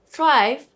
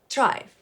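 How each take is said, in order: First: It begins with an English th sound. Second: It begins with a t sound.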